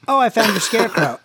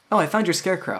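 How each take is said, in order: First: High, loud and quick; animated in-character echo. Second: High-pitched, casual aside; in-character remark. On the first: Game master echoes the player's line, loud quick call. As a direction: call it out fast with raised pitch. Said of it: "So you say". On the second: Player suggests a line to the game master, high casual delivery. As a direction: offer it lightly, pitched up. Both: Acted.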